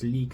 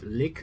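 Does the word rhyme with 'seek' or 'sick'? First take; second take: seek; sick. First: The vowel is long, as in 'seek'. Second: The vowel is short, as in 'sick'. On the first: The speaker calls it right. "but it's leak. It's the Swedish way of pronouncing" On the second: The speaker calls it wrong. "you expect to let's say it lick"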